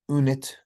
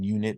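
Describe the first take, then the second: First: It begins directly with the vowel, no y sound. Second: It begins with a y sound before the vowel. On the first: The speaker calls it wrong. "We don't say unit" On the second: The speaker calls it right. "the first sound in unit ... the correct answer is a yod"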